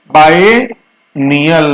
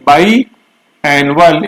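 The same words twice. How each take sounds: First: बायनियल stretched very slowly as bai-ni-yal; teacher modelling बायनियल slowly; careful pronunciation demo. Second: बायएनुअल stretched very slowly as bai-a-nu-al; teacher modelling बायएनुअल slowly; careful pronunciation demo. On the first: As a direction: drag बायनियल out slowly so every syllable lands. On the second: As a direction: draw out बायएनुअल slowly, contrasting it with biennial. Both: Shown as a demonstration. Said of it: "pronunciation सही होगा".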